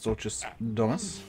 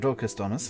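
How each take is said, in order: First: The c in the first word sounds soft. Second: The c in the first word sounds hard.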